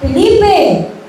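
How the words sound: The name is said in an angry voice.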